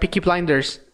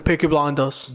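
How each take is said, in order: First: It is said in an American accent. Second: It is said in a British accent.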